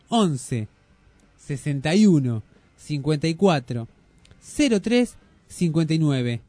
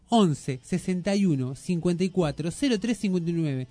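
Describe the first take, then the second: First: The number is said more slowly. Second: The number is said at normal speed.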